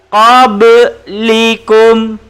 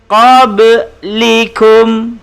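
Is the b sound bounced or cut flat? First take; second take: bounced; bounced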